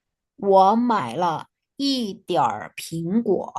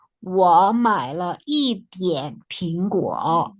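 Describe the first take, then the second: First: Slow reading, "一点儿" with curled R; slowly, ending "一点儿" on an "er" sound; R pronounced. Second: Slow reading, "一点" ending on N; slowly, "一点" with no curled R; R left out. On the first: Teacher reading for students to imitate, "一点儿" with R. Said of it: "Kalau R-nya tidak dibaca". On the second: Teacher rereading with R dropped, "一点" without R. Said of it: "ini juga bisa tidak dibaca". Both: Shown as a demonstration.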